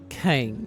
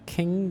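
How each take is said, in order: First: The vowel glides from one sound to another. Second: The vowel is a single steady sound. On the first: "they say king. Almost like there's a diphthong in there" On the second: "instead of saying king"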